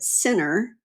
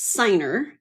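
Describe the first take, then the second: First: The first vowel is a short 'i' sound. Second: The first vowel is a long 'eye' sound. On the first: The speaker calls it wrong. "a lot of times people would pronounce it Sinner" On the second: The speaker calls it right. "It's Signer"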